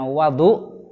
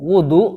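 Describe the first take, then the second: First: The first vowel is a. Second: The first vowel is u. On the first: It names the water used for ablution. "kalau dibaca fathah berarti bacanya wadu" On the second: It names the act of ablution. "kalau didomahkan"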